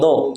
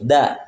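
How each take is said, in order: First: The syllable is pronounced heavy, sounding like do. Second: The syllable is pronounced thin, sounding like da. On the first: The speaker calls it wrong. "Jangan do" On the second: The speaker calls it right. "Dalnya tipis"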